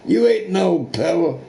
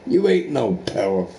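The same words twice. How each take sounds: First: "You ain't no power" jumps high and punchy; scornful repeat, pitched up; emphatic. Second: Said in the usual way. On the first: Real, not acted. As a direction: spit it back harder the second time. Repeats line, second louder.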